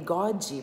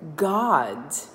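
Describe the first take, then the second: First: A vowel sound is added after the final D. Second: The word ends cleanly on the D sound. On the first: The speaker calls it wrong. "porque tá botando a vogal no fim" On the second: The speaker calls it right. "A palavra God"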